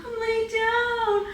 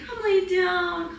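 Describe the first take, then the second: First: Very high, slow sung coaxing; sung, lilting pet-talk melody; sung, sing-song coo. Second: Higher, slow coo to the dog. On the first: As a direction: croon it to the dog like a lullaby. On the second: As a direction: coax the dog gently down, drawn out. Coaxing the dog to lie down. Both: Real, not acted.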